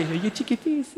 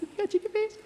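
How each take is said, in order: First: High coo, falling on face; cooing at the newborn, high and sweet; cooing baby talk. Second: Squealing at the newborn at the very top of the voice; squeaky baby talk. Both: Retold or imitated. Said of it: "they can just go".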